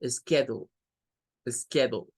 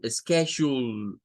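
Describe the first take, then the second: First: "schedule" with a short, clipped U. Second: "schedule" with a long, drawn-out U, slow. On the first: Teacher shows the short U in "schedule". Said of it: "con una U más corta". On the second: Teacher shows the long U in "schedule". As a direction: stretch the U in "schedule". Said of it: "U, prolongado". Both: Shown as a demonstration.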